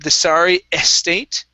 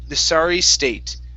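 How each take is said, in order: First: An extra vowel is added before 'state'. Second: 'State' begins directly with a clean S sound. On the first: The speaker calls it wrong. "instead of the sorry estate" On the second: The speaker calls it right. "give me a good S sound on state"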